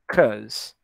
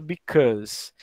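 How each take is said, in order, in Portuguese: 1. A palavra é encurtada para uma sílaba. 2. A palavra é dita por completo, com duas sílabas.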